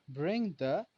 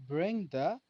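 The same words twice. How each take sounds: Both takes have the same delivery.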